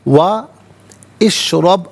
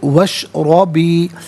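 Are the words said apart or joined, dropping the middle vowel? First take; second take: apart; joined. First: The words are said separately with the middle vowel. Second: The words run together without the middle vowel. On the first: "अलहदा" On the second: "हमज़ा को हज़फ किया जाएगा"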